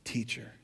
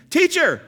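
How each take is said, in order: First: Much softer, lower, slow TEACHER; pointed quiet emphasis. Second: High, loud desperate call to Jesus; panicked disciple cry. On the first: Shown as a demonstration. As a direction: let the word Teacher land in a hush. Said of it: "Notice what they called him". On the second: Acted. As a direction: cry out like a disciple in the sinking boat. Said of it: "said to him".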